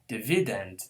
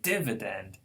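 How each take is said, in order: First: The stress is on the middle syllable. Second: The stress is on the first syllable. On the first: The speaker calls it wrong. "stressing the second to the last" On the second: The speaker calls it right. "no, we say dividend"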